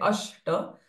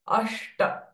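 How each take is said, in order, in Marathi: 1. 'sh' चा आवाज सपाट जीभेने केला जातो. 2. 'sh' चा आवाज मागे वळलेल्या जीभेने केला जातो. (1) "We cannot say ashta" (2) "Ashta and retroflex sh"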